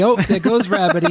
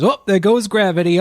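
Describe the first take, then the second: First: The rap line repeated high, breaking into a laugh; laughing through the lyric. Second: Half-sung high rap lyric, teasing; rapped, bursting into the lyric in a higher voice; quoted rap line. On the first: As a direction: sing it again, giggling as it goes. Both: Retold or imitated. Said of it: "of course my brain goes".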